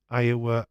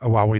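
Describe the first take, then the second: First: It is said the usual way, as Iowa. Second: It is said letter by letter, as a wowie. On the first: The speaker calls it right. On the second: The speaker calls it wrong.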